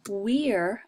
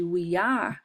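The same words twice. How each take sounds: First: "we're" run together as one syllable; contracted form. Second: "we are" as two separate words; uncontracted form. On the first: Teacher showing the contraction to students, "we're" said as one word. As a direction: blend "we are" into a single "we're". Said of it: "podemos fazer um contraction". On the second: Teacher contrasting with the contraction, "we are" said in full. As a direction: give "are" its own full syllable in "we are". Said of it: "ao invés de we are". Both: Shown as a demonstration.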